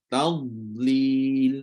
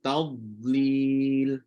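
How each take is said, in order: The two takes are said the same way.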